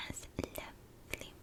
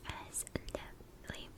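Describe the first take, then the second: No difference in how they are said.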